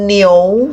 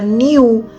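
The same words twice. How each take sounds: First: The vowel is said with an o sound, i-o-u. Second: The vowel is said as a plain i-u. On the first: The speaker calls it right. "pembacaannya iyo" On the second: The speaker calls it wrong. "bukan dibaca niu"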